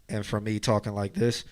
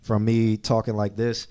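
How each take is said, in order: First: Muffled and boxy, like speaking from inside a can; boxy mid-range voice; boxy can sound. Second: Said in the usual way. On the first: Shown as a demonstration. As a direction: cup the mic so the voice sounds boxed in. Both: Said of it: "you see that huge difference".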